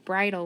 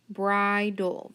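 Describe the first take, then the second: First: Said in the usual way. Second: "Bridle" split as bri-dul, long I; sounded out by syllable. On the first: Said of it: "On the next word". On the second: Shown as a demonstration. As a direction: sound out BRIDLE slowly in two beats. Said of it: "my first syllable says bri".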